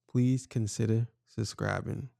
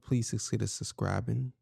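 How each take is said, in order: First: It is said slowly and deliberately. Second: It is said at normal speed.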